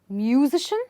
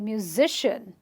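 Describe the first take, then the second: First: The stress is not before the -ian ending. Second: The stress is right before the -ian ending. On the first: The speaker calls it wrong. "I don't say musician" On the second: The speaker calls it right. "I'll say musician"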